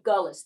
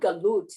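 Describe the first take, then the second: First: It is said with a Yiddish pronunciation. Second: It is said with a Hebrew pronunciation. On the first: "I want to say it with the Yiddish intonation" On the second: "Not Galut in the Hebrew way"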